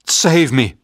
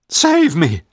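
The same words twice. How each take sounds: First: Loud, higher plea for help; frightened shout. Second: Much higher, loud desperate plea; panicked scream. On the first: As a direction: shout for rescue in fear. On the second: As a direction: scream it louder as terror peaks. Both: A narrator's reading. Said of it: "I shouted".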